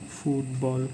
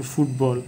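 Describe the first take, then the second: First: ফুটবল in two even beats, ফুট then বল; split into syllables. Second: Said in the usual way. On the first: Shown as a demonstration. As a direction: say ফুটবল as two separate parts, softly. (ফুটবল দুই ভাগে ভেঙে বলা) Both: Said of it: "দুইবারে ভাঙাইতে পারতেছি".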